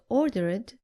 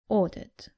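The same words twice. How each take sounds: First: The ending is an extra 'id' syllable. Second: The ending adds no extra syllable. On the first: The speaker calls it wrong. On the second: The speaker calls it right.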